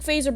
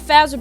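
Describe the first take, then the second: First: The first vowel is a long A sound. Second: The first vowel is a short A sound. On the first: "which implied that the A will make the long A sound" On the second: "they should have put an extra Z in that word"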